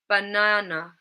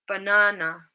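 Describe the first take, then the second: The two takes are said the same way.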